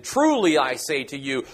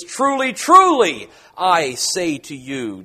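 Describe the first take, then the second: First: Said in the usual way. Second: Slow, weighty "truly, truly I say to you" for emphasis; emphatic double truly. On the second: Shown as a demonstration. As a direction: lean hard on "Truly, truly" and draw out "I say to you". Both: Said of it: "or, for emphasis".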